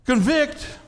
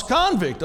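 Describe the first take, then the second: First: Convict as the verb, stress on the second syllable, con-VICT. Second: Convict as the noun, stress on the first syllable, CON-vict. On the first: Preacher contrasting the verb for the congregation, Convict stressed on -VICT. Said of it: "With another pronunciation". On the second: Preacher naming the jailed person, convict stressed on CON-. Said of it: "we pronounce convict". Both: Shown as a demonstration.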